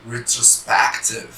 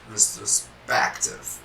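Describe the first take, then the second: First: Said in the usual way. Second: Retrospective whispered slowly, each syllable drawn out; slow breathy model word. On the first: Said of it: "English word, first take". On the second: Shown as a demonstration. Teacher modelling the English Retrospective slowly and breathily. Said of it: "Preste atenção".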